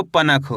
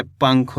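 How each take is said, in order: First: पनख with a full vowel after न, "pa-nakh"; full "na" sound. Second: पंख with a quick half nasal, "pankh"; half "n" sound. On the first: Teacher showing the mistake to avoid, full "na". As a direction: sound the न of पनख as its own syllable. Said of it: "ना का पूरा उच्चारण हो गया". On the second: Teacher showing the correct reading, half "n". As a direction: clip the न in पंख to half, no vowel after it. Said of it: "आधा उच्चारण निकालना है". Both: Shown as a demonstration.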